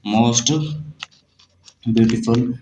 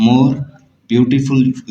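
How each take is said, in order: First: Most beautiful said slowly, each word set apart; slow dictation. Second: More beautiful said slowly, each word set apart; slow dictation. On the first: Teacher dictating most beautiful slowly to the student. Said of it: "superlative degree बनाएंगे". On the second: Teacher dictating more beautiful slowly to the student. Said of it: "comparative degree बनाएंगे". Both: Shown as a demonstration.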